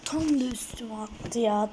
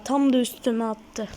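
First: Said in the usual way. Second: Louder annoyed repeat. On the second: Real, not acted.

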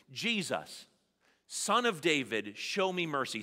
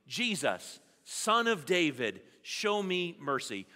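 First: Said in the usual way. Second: Louder call for mercy; nice and loud. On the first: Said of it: "Say it with me". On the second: Shown as a demonstration. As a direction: call it out with the room. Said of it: "Say it nice and loud with me".

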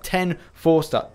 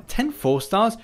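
First: Said in the usual way. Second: "ten" lifted high, slow rising disbelief; incredulous question. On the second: Real, not acted. Wondering at his own crystal count, slow rising disbelief. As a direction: ask as if you can't believe it.

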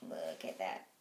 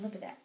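First: Much lower, dropped voice; low-voiced repeat. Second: Said in the usual way. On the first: Real, not acted. Vlogger showing viewers the scratched skin, low dropped voice. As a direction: drop right down low for emphasis.

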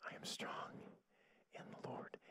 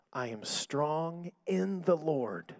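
First: Imitating a faint, feeble whisper; barely able to speak. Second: Said in the usual way. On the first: Sick sister repeating the minister's words, faint whisper. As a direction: echo it weakly, almost without voice. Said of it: "she could barely speak". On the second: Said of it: "Sister, just say this with me".

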